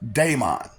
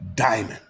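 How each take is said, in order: First: The word sounds like 'demon'. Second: The word sounds like 'diamond'. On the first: This is the common everyday pronunciation. The speaker calls it wrong. "You pronounce it daemon" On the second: This follows the word's Greek origin. The speaker calls it right. "it's a Greek and origin word. So it's pronounced diamond"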